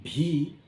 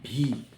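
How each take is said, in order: First: The letter begins with a breathy b-like sound. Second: The letter begins with a breathy b-like sound.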